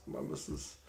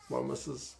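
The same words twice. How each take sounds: First: Breathy whisper, much softer, so the wife won't hear; whispering behind his wife's back; whispered aside. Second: Said in the usual way. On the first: Real, not acted. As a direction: drop to a secret whisper.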